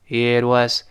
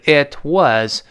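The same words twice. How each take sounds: First: The words are said fast and linked together. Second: The words are said slowly and separately. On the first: "读快了之后叫It was" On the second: "如果读得很慢的时候是It was"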